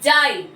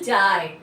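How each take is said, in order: First: The word is said loudly and with force. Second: The word is said softly and gently. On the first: "এই যে রস্বইটাকে আমি কিন্তু জোরে বলছি" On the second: "এই যে অন্তঃস্থটা সফট হয়ে যাচ্ছে, নরম সুরে বলছি"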